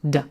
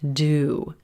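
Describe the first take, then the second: First: The word has a quick, reduced 'uh' vowel. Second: The word has a full, clear 'oo' vowel. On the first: The word is a helping verb. "You hear the cup of mustard a sound, and it's very quick" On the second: The word is the main verb. "it's going to be fully pronounced. This means that you'll distinctly hear the blue moon oo vowel"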